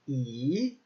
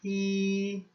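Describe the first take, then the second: First: The pitch rises from middle to high. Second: The pitch stays high and level throughout. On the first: "this rising action here" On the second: "just a high, even tone"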